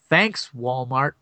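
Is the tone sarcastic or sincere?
sarcastic. It is said in a sarcastic, resentful tone. The thanks is ironic blame for harm done.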